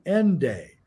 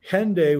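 First: The word begins without any H sound. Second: The word begins with an audible H sound.

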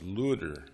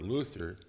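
First: The middle consonant is a plain t sound. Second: The middle consonant is a th sound. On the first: This is the name's ordinary German form. "His name in German was Luther, L-U-T-T-E-R or L-U-D-D-E-R" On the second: This form puns on the Greek word for freedom. "He pronounced it L-U-T-H-E-R or Luther, punning on the word for freedom"

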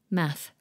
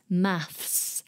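First: The word ends with a th sound only. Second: The word ends with a th then s sound. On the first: This is the American English form. "in American English, they drop the S" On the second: This is the British English form. "in British English, we say maths with an S on the end"

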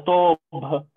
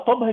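First: The first vowel is long and full. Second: The first vowel is short and clipped. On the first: The speaker calls it right. "لا هي طوبها" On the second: The speaker calls it wrong. "لما اقولها طبها كده حولتها كانها صغيره"

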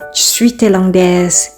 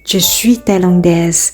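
First: Je is reduced and not pronounced clearly. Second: Je is pronounced clearly and fully. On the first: This is the casual spoken form. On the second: This is the textbook form.

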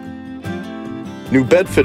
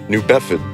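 First: The R and D sounds are pronounced. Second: The R and D sounds are dropped.

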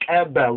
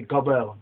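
First: The first consonant is a sharp, click-like ejective. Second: The first consonant is a plain k or g. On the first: The speaker calls it right. "We say Keb because that's that Ethiopian click" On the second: The speaker calls it wrong. "But they would say gobel"

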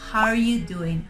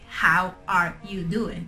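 First: The words are contracted and run together. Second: Each word is pronounced fully and separately. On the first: The speaker calls it right. "So you need to use contractions" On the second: The speaker calls it wrong. "nobody's gonna say"

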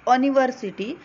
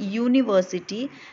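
First: The word begins with a plain vowel sound. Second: The word begins with a consonant Y sound. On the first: The speaker calls it wrong. "if the university is pronounced as university, then it would have been correct" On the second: The speaker calls it right. "U is not the sound of vowel U, it is the sound of consonant Y"

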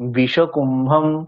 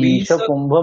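First: The first vowel is kept short. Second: The first vowel is held long. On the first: The speaker calls it right. "বিটা তো হ্রস্ব" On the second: The speaker calls it wrong. "বিষকুম্ভম নয় তো"

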